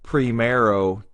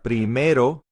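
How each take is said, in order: First: The R is said like an English R. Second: The R is a quick tongue flap. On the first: The speaker calls it wrong. "It's not primero, ... That's again an English accent pronunciation of the R" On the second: The speaker calls it right. "We want to flap the R"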